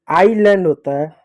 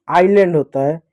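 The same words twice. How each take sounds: The two takes are said the same way.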